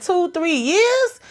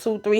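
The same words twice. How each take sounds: First: High, drawn-out disbelieving question; incredulous echo. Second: Said in the usual way. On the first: Retold or imitated. Shocked dad repeats his son's answer, mock incredulous. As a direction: repeat it back, stretched and shooting up in pitch.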